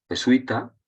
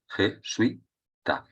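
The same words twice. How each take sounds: First: Said in the usual way. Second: "jesuita" broken slowly into je-sui-ta; "jesuita" as je... sui... ta, teacher sounding out syllables. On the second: Shown as a demonstration. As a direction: say "jesuita" in three drawn-out syllables, "sui" kept as one. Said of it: "por tanto es una palabra llana".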